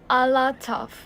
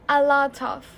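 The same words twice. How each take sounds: Both takes have the same delivery.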